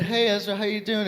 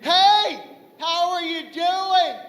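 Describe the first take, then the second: First: Said in the usual way. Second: High-pitched, softer mock-concerned voice; exaggerated high sing-song condescension; patronizing greeter. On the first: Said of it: "don't even greet me properly. I don't get". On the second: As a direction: greet them like a helpless little child. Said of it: "don't even greet me properly".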